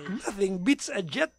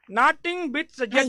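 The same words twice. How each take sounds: First: It is said in the speaker's plain accent. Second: It is said in an Indian accent.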